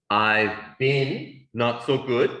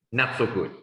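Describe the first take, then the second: First: Slow and deliberate; slow model answer. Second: Said in the usual way. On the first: Shown as a demonstration. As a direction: spell it out slowly for learners. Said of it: "Now you can say". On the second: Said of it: "You can also say, just".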